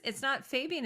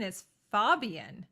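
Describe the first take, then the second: First: Fabian said as FAY-bee-an, the wrong way; "Fabian" with a long FAY sound; wrong name. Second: "Fabian" slowly, as FAH-bee-an with a broad ah; "Fabian" said carefully with an open FAH; right name. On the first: Correcting a friend, saying the wrong name first. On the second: Correcting a friend, stating the right name slowly. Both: Shown as a demonstration.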